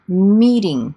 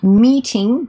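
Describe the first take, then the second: First: The middle consonant is a soft D. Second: The middle consonant is a clear T.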